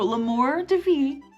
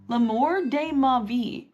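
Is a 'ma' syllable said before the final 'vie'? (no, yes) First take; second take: no; yes. First: It is said without a 'ma' syllable. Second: It is said with a 'ma' syllable. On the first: The speaker calls it wrong. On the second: The speaker calls it right.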